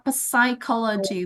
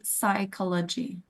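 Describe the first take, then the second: First: The word begins with a p sound. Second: The word begins with an s sound. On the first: The speaker calls it wrong. "the pronunciation is not psychology" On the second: The speaker calls it right. "but immediately psychology. So we can start with s sound"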